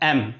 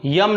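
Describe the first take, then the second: First: The letter name starts directly with a vowel. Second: The letter name starts with a y sound. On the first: The speaker calls it right. "सही pronunciation क्या है? एम" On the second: The speaker calls it wrong. "यम नहीं, इसको यम नहीं पढ़ते हैं"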